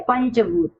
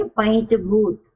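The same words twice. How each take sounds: First: पंचभूत said with a plain n before भूत; पंचभूत with a dental n, as the mistaken reading; wrong pronunciation. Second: पैंचभूत slowly, nasal ञ before च; पैंचभूत said slowly and carefully; correct pronunciation. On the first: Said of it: "क्या यह सही है? नहीं।". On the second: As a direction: pronounce पैंचभूत with a clear palatal nasal, slow. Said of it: "इसका उच्चारण क्या होना चाहिए?". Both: Shown as a demonstration.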